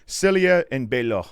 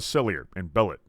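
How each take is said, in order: First: The name is pronounced with a French accent. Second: The name is pronounced the plain English way.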